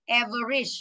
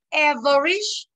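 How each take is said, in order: First: Said in the usual way. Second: "Average" slowed right down, higher and louder, ending on a rise; slow pronunciation model. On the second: Shown as a demonstration. Teacher demonstrating "Average" for the class, slow and loud. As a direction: stretch out "Average" loudly so students hear the stress. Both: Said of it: "đọc là E".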